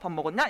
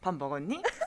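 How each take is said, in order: First: It is said in a blunt, curt tone. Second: It is said in a soft, gentle tone.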